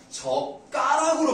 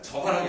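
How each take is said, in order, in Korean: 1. 두 번째 음절은 경음으로 시작해요. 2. 두 번째 음절은 평음으로 시작해요. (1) "젓가락으로 발음하단 말이야" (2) "젓가락이 아니라"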